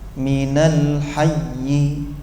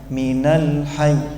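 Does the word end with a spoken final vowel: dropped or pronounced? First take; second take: pronounced; dropped. First: The final vowel after hayy is clearly pronounced. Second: The word stops on hayy without a final vowel. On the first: The word is read as if it continues on. "Kalau hidup kan begini" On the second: The word is read with a stop at its end. "yi-nya enggak sampai terucap, tersisa persiapannya"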